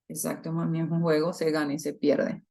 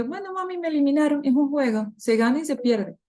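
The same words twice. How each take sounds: First: Said in the usual way. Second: Put-on higher little-girl voice, calm and accepting; daughter's voice. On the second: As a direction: play a small girl shrugging off losing a game. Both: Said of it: "y Leticia me dice".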